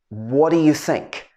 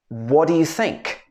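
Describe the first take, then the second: The two takes are said the same way.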